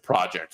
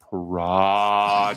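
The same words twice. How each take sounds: First: The word is said at normal length. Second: The word is stretched out with extra syllables. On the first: It is an ordinary project. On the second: It is a huge, long-term undertaking.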